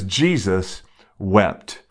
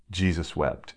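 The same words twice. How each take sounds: First: Jesus wept, drawn out slowly with weight on Jesus; slow solemn reading. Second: Jesus wept, said much softer and lower; hushed repeat. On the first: Preacher quoting the verse to the church, slow and solemn. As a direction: let Jesus wept land slowly, word by word. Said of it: "It says". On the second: Preacher closing on the verse for the congregation, hushed and low. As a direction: drop Jesus wept almost to a hush. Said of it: "he weeps for you and I?". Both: Shown as a demonstration.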